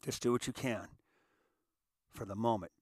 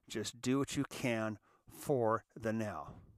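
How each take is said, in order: First: It is said at a normal pace. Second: It is said slowly.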